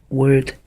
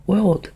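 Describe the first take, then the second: First: "Word" spoken with no L sound; Word, clipped with no L. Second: "World" spoken with a clear L before the D; World, pronounced with its L. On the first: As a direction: drop the L so "Word" stands apart from world. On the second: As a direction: stretch out "World" so the L is heard. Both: Shown as a demonstration. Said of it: "The word is".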